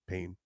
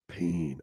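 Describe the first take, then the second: First: It is said in a plain, natural voice. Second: It is said in a gruff, tough-guy voice. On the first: It expresses expecting to get hurt again. The speaker calls it right. "I was like pain" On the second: It sounds like a dramatic tough-guy prediction. The speaker calls it wrong. "I didn't go prediction, pain"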